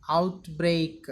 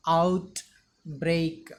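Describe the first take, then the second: First: Said in the usual way. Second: OUTBREAK split in two, out, then break; syllable by syllable. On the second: Shown as a demonstration. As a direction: say outbreak slowly with a gap after out. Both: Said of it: "The pronunciation of the word is".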